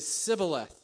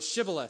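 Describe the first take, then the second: First: The word begins with an s sound. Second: The word begins with a sh sound. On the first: This form gave the speaker away as an outsider. The speaker calls it wrong. "so they would say Sibboleth" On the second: This is the password form that was asked for. The speaker calls it right. "they couldn't pronounce the word Shibboleth"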